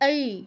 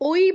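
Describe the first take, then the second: First: The vowel glides from a to i. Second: The vowel glides from o to i. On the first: The speaker calls it right. "কি বলতে হবে? এই এই এই" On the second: The speaker calls it wrong. "ওই বললে হবে না, ওই বললে ভুল"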